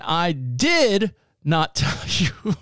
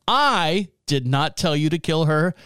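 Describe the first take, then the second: First: "did" stressed, rising, very slow. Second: "I" stressed with a rising tune. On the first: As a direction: drag out and rise on "did". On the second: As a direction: lift and lean on "I" at the start. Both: Shown as a demonstration. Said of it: "Depending on how you emphasize the phrase".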